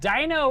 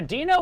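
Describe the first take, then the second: First: The first syllable sounds like 'dinosaur'. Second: The first syllable differs from 'dinosaur'. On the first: It refers to dinosaurs in general. "just more accurate towards any dinosaur" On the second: It refers to the cartoon character. "the Fred, the Flintstones version of it"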